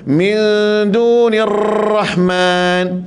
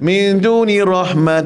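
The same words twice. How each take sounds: First: The r is trilled heavily and too long. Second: The r has only a light trill. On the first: The speaker calls it wrong. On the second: The speaker calls it right.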